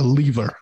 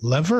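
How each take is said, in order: First: "lever" as LEE-ver, long e; long-e pronunciation. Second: "lever" as LEV-er, short e; short-e pronunciation. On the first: Host offers guest the other reading, "lever" as LEE-ver. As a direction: say "lever" to rhyme with "beaver". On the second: Host asks guest how to say the title word, "lever" as LEV-er. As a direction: say "lever" to rhyme with "never". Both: Shown as a demonstration. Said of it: "I mispronounce this word all the time".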